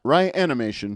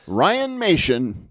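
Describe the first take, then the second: First: An extra 'i' syllable follows 'Ryan'. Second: No extra syllable follows 'Ryan'. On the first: The speaker calls it wrong. "not Ryanimation" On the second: The speaker calls it right. "Ryanmation, not Ryanimation"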